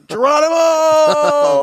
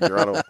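First: The word is yelled loudly. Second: The word is said at normal speaking volume.

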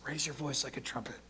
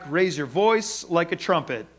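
First: It is spoken in a quiet whisper. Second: It is spoken in a normal full voice.

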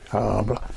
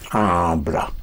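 First: The vowels are pronounced vaguely and indistinctly. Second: The vowels are pronounced fully and clearly. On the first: The speaker calls it wrong. "if you just say habla" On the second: The speaker calls it right. "That was clear"

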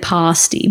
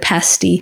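First: The word is given its Australian pronunciation. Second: The word is given its British pronunciation. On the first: This is how people in Australia say it. "But we say pasty" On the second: This is how people in the UK say it. "In the UK, that's how they say it"

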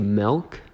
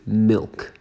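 First: The vowel sounds like 'eh', as in melk. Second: The vowel sounds like 'ih', as in milk. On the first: The speaker calls it wrong. "I say milk, like M-E-L-K" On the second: The speaker calls it right. "when I believe it is milk"

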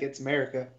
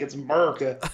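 First: It is said in an upper-class redneck style. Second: It is said in a broad down-home redneck style. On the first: The speaker sounds like a more refined redneck. "if you just want to sound like upper-class redneck" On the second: The speaker sounds like a rough, rural redneck. "if you really want to sound down-home redneck"

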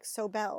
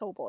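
First: The name is said in a fancy way. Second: The name is said in a plain way. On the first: The speaker calls it wrong. "some people try and make it fancy" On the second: The speaker calls it right. "no, it's Sobel"

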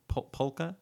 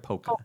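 First: The L sound is clearly pronounced. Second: The L sound is left out. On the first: "do you pronounce the L in polka" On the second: "or polka?"

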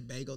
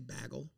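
First: It is said with a standard general pronunciation. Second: It is said with a Minnesota regional pronunciation. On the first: "they don't say bagel" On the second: "in Minnesota, They say bagel"

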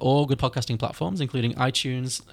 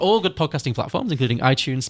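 First: The delivery sounds flat and uninterested. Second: The delivery sounds lively and interested. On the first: The speaker calls it wrong. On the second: The speaker calls it right.

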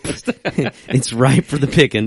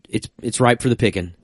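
First: It is said in a country, rural accent. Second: It is said in a plain, neutral accent.

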